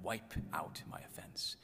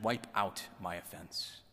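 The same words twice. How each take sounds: First: Slow, near-whispered prayer; hushed savoring. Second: Said in the usual way. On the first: Acted. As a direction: linger softly over each word. Savors a line he loves.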